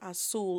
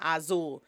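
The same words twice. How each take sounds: First: The middle consonant sounds like an s. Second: The middle consonant sounds like a z. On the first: The speaker calls it right. "The way you pronounce blue is azul" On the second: The speaker calls it wrong. "is not azul"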